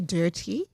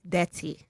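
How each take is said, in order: First: It is said with a non-Nigerian pronunciation. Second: It is said with a Nigerian pronunciation. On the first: "they don't say dirty" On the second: "They say dirty. ... It's in the pronunciation"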